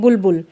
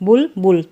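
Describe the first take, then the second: First: The word is said smoothly without a break. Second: The word is split into two separate parts.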